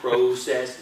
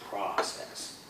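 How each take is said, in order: First: It is said with a Canadian pronunciation. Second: It is said with an American pronunciation. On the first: "instead of process" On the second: "it's process"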